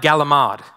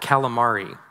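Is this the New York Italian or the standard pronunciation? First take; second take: New York Italian; standard. First: It is said in a New York Italian-American way. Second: It is said in the standard English way. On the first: The speaker calls it wrong. "I had to order fried galamade instead of" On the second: The speaker calls it right. "instead of fried calamari"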